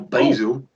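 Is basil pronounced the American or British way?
American. The word is said in an American way.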